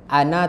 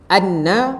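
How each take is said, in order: First: The n sound is short, single. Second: The n sound is held long, doubled. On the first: The speaker calls it wrong. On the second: The speaker calls it right.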